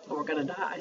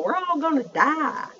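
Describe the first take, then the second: First: Said in the usual way. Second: High, slow imitated Southern drawl. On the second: Imitating a friend from work, exaggerated southern drawl. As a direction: draw it out like a Southern friend being dramatic. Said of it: "with her southern drawl".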